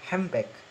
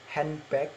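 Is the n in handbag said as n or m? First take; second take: m; n. First: The middle sound becomes an m. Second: The middle sounds are n and d.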